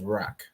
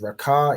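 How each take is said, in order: First: The word ends on a consonant sound. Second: The word ends with an extra vowel sound. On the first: The speaker calls it right. "the A dropped up drops off on the second letter" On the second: The speaker calls it wrong. "instead of saying Raka"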